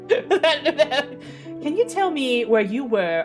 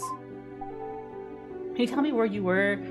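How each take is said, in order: First: It is said in a put-on Southern accent. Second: It is said in the speaker's ordinary voice.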